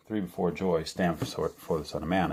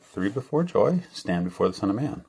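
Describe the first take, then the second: First: Said in the usual way. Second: Very kind voice. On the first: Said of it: "So it said". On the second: Retold or imitated. Dreamer retells the voice he heard, very kindly. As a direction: gently lift it, like a kind voice from above. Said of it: "in a very kind way".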